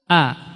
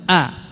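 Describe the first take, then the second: The two takes are said the same way.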